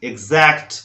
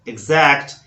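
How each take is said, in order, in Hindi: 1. x की आवाज़ egz जैसी है। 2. x की आवाज़ egz जैसी है।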